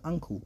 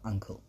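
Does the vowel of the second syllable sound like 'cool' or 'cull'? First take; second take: cool; cull. First: The second syllable sounds like 'cool'. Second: The second syllable sounds like 'cull'. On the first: A young child's mispronunciation of the word. The speaker calls it wrong. "he can't say uncle properly. He's got a bit of a speech impediment, so he says" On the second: The standard pronunciation of the word. The speaker calls it right. "instead of"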